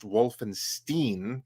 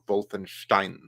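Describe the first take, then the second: First: The name is said with an American pronunciation. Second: The name is said with a German pronunciation. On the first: The speaker calls it wrong. "That's an American pronunciation based on those who don't know how to say it" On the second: The speaker calls it right. "It's Castle Wolfenstein, just like Frankenstein"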